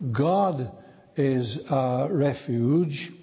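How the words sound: The stress falls on the word God. The focus is on who God is and what he can do. "we put the emphasis upon that first word, upon the word God"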